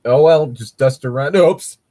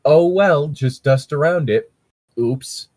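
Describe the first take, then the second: First: "Oh, well, just dust around, oops" in one breath; no pause before "oops"; run together. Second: Long pauses after "Oh, well" and before "Oops"; ellipsis pauses. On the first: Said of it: "how I would think of trying to write that would be". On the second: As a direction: pause at each ellipsis in "Oh, well, just dust around it". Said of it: "how I would think of trying to write that". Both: Shown as a demonstration.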